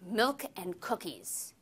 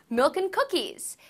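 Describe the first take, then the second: First: The voice sounds angry and harsh. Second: The voice sounds happy and bright. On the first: "Say it angrily"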